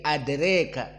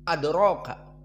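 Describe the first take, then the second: First: The long vowel is tilted toward e. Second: The long vowel is a plain open a.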